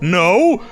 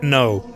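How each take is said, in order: First: It is said with strong emotion. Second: It is said flatly, without much emotion.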